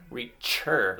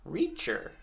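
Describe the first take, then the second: First: "reacher" split, with weight on the final "cher"; stress on last syllable. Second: Said in the usual way. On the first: Shown as a demonstration. Teacher comparing close endings for children, stressed last syllable. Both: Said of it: "Cur and chur".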